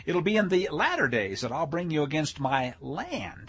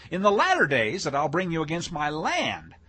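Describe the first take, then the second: First: Said in the usual way. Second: Firmer, weightier stress on "latter days"; corrected emphasis. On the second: Shown as a demonstration. Preacher rereading the verse with the right emphasis, firmly stressed. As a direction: read it out emphatically, leaning on "latter". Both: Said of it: "if I put the emphasis on the right syllable".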